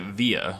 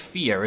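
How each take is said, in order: First: The word begins with a V sound. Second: The word begins with an F sound. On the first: The speaker calls it wrong. "every time I pronounce it via, like it, you know, is spelled, people shout at me" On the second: The speaker calls it right. "It's more like an F sound than a V sound"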